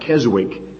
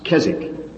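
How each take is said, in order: First: The W in the middle is pronounced. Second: The W in the middle is silent. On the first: The speaker calls it wrong. "Most Americans pronounce that Keswick" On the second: The speaker calls it right. "but the W is silent, it's Keswick"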